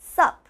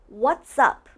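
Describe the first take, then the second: First: Only the single syllable sup is said. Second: Both words are said, blended together. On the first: The speaker calls it wrong. "some people even just say sup" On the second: The speaker calls it right. "It's almost like what's and up are blended"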